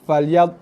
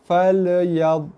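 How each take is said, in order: First: The l sound is hard and very quick. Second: The l sound bounces with a short echo. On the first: "membaca lam tu dengan bunyi keras dan pantas" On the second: "mengkol-kolahkan bunyi ataupun huruf lam mati"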